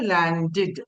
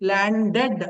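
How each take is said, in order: First: The final syllable sounds like 'did'. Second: The final syllable sounds like 'ded'. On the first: The speaker calls it right. "టెడ్ అని కాకుండా టిడ్ అని చదవాలని" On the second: The speaker calls it wrong. "ల్యాండెడ్ అనకుండా"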